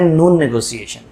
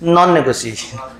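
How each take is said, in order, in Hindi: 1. पहला शब्द लंबे oo स्वर के साथ बोला जाता है। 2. पहला शब्द छोटे o स्वर के साथ बोला जाता है।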